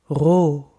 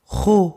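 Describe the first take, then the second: First: The R is a gargly sound in the throat. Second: The R is a tense, phlegmy scraping sound. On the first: "starting with a gargly air" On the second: "the phlegmy air"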